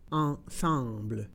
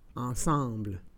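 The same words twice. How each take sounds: First: It is said slowly and carefully. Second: It is said at normal conversational speed. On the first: "then slowly said in French" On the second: "and then in communicational Canadian French"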